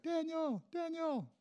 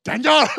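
First: High, softened calling-out of a name; high-pitched, held-back shout; mock distant shout. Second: Put-on very loud, high-pitched mom shouting for her kid; sudden piercing mock-mother shout; mom's yell. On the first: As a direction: pretend to holler a name, kept small and high. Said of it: "He shouted your name, right, out loud". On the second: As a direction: holler a name across the food court like an angry mom. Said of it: "your mom goes".

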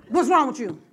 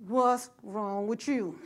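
First: Louder, harder ghetto snap; real ghetto. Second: Slow, street-style scolding; lightly done ghetto mom voice; real ghetto. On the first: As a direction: bark it like a street mom. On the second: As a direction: drawl it out like a tough street mom. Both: Retold or imitated. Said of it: "This how I was talking, real ghetto".

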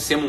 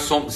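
First: "semos" com e no lugar do o; caipirês. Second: Said in the usual way. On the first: Shown as a demonstration. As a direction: troque "somos" por "semos", à moda caipira. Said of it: "quer falar em caipirês". ("semos" em caipirês) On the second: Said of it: "semos um pouco caipira".

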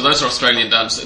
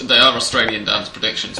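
First: Said in the usual way. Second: Emphasis on "are", the rest unstressed; stress on ARE. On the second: Real, not acted. Host clarifying whose predictions were read, stress on "are". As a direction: lean on the word "are" to insist. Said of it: "we should say".

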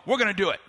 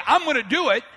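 First: Committing despite confusion. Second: Firm, confident declaration; ready commitment. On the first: Preacher voicing people who hear it makes no sense, reluctant commitment. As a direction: agree though it makes no sense. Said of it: "and it makes no sense, you go". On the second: Preacher voicing someone who simply says it, ready commitment. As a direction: say it as an easy promise. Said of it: "It's one thing to say". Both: Acted.

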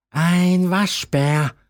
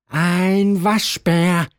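First: Owl answering. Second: Slow, drawn-out impatient answer; impatient owl. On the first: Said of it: "antwortete die Eule wieder". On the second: Owl, tired of the question, answers the raccoon impatiently and slowly. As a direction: owl has had enough, spells it out slowly. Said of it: "rief die Eule ungeduldig". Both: A narrator's reading.

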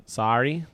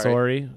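First: "Sorry" with an open "sar-ee" vowel; non-Canadian pronunciation. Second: "Sorry" with a rounded "sore-ee" vowel; Canadian pronunciation. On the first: Co-host comparing accents, "Sorry" said "sar-ee", ending on a rise. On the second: Co-host testing their Canadian accent, "Sorry" said "sore-ee". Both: Shown as a demonstration. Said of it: "do we have an accent?".

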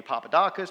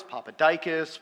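First: Papadakis with AH in third syllable; variant pronunciation. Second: Papadikis with a long EYE, "DYE-kis"; variant pronunciation. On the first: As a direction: say Papadakis, open "dah" before "kis". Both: Retold or imitated. Guest speaker recalling dad's versions of the surname, variant pronunciation. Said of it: "bounced between different pronunciations".

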